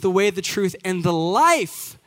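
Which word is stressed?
life. The word life carries the main stress. He is a way of living. "if you emphasize a different word"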